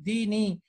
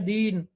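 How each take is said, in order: First: The word ends with a pronounced long 'i' vowel. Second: The word ends on 'n' with no final vowel. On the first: "ये असल में लफ्ज है दीनी" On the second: "यहाँ या साइलेंट है"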